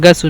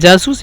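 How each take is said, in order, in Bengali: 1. এটি hard g উচ্চারণ দিয়ে শুরু হয়। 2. এটি j উচ্চারণ দিয়ে শুরু হয়। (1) "গয়েন দিয়ে উচ্চারণ করে যাব" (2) "জিম দিয়ে"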